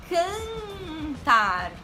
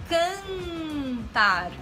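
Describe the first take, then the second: The two takes are said the same way.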